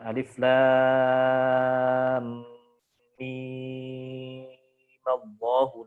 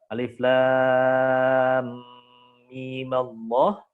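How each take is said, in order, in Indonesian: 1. Vokal pada mim dibaca panjang. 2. Vokal pada mim dibaca sebentar. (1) "dibaca dengan enam harokat seperti mad lazim" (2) "dengan qasr, dengan dua harokat pendek"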